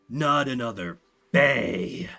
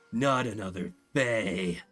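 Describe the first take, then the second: First: Fae is spat out with a hard F. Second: Fae is said plainly, without extra force.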